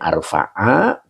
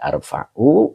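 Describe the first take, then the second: First: The word ends with an 'a' vowel. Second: The word ends with an 'u' vowel. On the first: The word is joined to the preceding accusative noun. "kalau dibacanya arfa'a berarti menjadi maktuf alaih dari khairon" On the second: The word is in the nominative case. "Kalau dibaca arfa'u"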